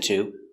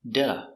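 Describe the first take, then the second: First: It has a full T and full vowel. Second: It has a quick D and a weak vowel. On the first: The speaker calls it wrong. "we don't pronounce it to" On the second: The speaker calls it right. "pronounced with a D sound"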